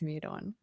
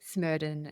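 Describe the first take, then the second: First: It is said as two words, smeared on. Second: It is said as one name, Smerdon. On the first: The speaker calls it wrong. "not smeared on" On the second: The speaker calls it right. "it is pronounced Smerdon"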